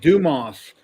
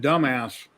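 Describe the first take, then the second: First: The name ends without a final S sound. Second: The name ends with a clear S sound. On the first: The speaker calls it right. "It said Dumas" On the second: The speaker calls it wrong. "if you read it wrong"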